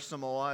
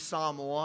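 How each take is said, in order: First: The name is said the common English way. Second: The name is said the native way. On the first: This is how many outsiders say it. "as many people pronounce it" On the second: This is the country's own name for itself. "The actual name of the country is Samoa"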